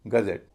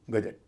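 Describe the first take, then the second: First: "गजेट" with z and a heavy "zet"; light first syllable, stressed last in "गजेट"; correct pronunciation. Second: "गजेट" with a j sound and short, light ending; plain everyday "गजेट" with j and short final vowel; common wrong pronunciation. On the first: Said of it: "पूरे शब्द को बोला जाएगा". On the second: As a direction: say "गजेट" as GA-jat, ending unstressed. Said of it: "जिसे आमतौर पर हम गजेट कहते हैं". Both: Shown as a demonstration.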